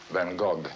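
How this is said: The name is said the French way. "In France, they call him"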